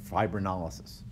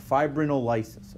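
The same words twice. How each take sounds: First: Fibrinolysis stressed on LY, fi-brin-o-LY-sis; second stress variant. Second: Fibrinolysis stressed on NOL, fi-bri-NOL-y-sis; first stress variant. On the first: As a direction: shift the weight to the LY syllable of fibrinolysis. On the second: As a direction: put the weight on the NOL syllable of fibrinolysis. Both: Shown as a demonstration. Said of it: "depending of where you put the emphasis on the syllable".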